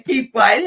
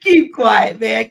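First: "quiet" lifted into a rising tune; teasing hush with "quiet" rising; stress on quiet. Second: Playful hush with weight on "Keep"; stress on keep. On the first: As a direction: lean on "quiet" in "Keep quiet". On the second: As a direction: KEEP hit high and loud, quiet falls away. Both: Real, not acted.

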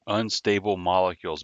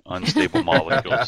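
First: Said in the usual way. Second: Higher and louder, savoring the catchphrase; excited. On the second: Acted. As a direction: belt it out like a proud punchline. Repeating the catchphrase with relish.

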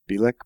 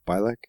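First: "Bilek" said as BEE-lek, questioning; trying BEE-lek pronunciation. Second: "Bilek" said as BYE-lek, questioning; trying BYE-lek pronunciation. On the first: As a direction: try "Bilek" with a long EE first, unsure. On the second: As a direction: try "Bilek" with first syllable like "bye". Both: Shown as a demonstration.

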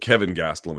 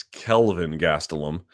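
First: "Kevin Gastelum" with no L, just as the viewer wrote it; wrong name, Kevin. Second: "Kelvin Gastelum" slowly, the L in "Kelvin" sounded clearly; corrected name, Kelvin. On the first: Host reads a viewer's misspelled name aloud, plainly. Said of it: "It's Kelvin Gastelum". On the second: Host correcting a viewer's misspelled fighter name, slow and deliberate. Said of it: "you put Kevin Gastelum". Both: Shown as a demonstration.

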